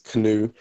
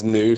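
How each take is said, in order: First: It is said as two syllables, like canoe. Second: It is said as one syllable, like new. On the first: "Some people pronounce it as canoe" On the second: "I pronounce it as new"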